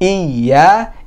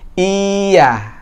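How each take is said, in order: First: The first vowel is short, the y pressed. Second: The first vowel is drawn out long. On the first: The speaker calls it right. "Hamzahnya nggak boleh panjang ya. Dia cuma satu harokat" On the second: The speaker calls it wrong. "bukan iya"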